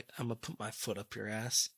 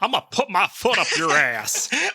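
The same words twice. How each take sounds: First: It is said without the intended character voice. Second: It is said in a put-on character voice. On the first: The speaker calls it wrong. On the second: The speaker calls it right.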